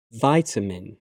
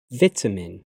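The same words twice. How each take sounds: First: "vitamin" with a long "i": VY-ta-min; American pronunciation. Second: "vitamin" with a short "i": VIT-a-min; British pronunciation. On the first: Teacher trying the American form, American pronunciation. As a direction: say "vitamin" with a first vowel like "eye". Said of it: "my American pronunciation". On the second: Teacher reading the British form of each pair, British pronunciation. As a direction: say "vitamin" with a first vowel as in "bit". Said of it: "I'm a British English native speaker". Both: Shown as a demonstration.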